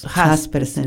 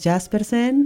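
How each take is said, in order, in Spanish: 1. El apellido se dice con pronunciación mexicana. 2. El apellido se dice con su pronunciación extranjera original. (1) "En México lo pronunciamos Jaspersen" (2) "Originalmente es Jaspersen"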